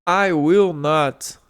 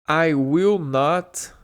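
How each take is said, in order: Both takes have the same delivery.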